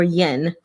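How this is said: The word is given an American pronunciation.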